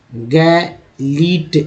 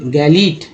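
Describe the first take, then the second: First: गैलीट drawn out very slowly with a rising end; teacher slowly sounding out गैलीट; very slow demo reading. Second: Said in the usual way. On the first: Shown as a demonstration. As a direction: stretch गैलीट out so students hear each sound. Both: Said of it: "ध्यानपूर्वक देखेंगे समझ में आएगा कि कैसे पढ़ा गया है".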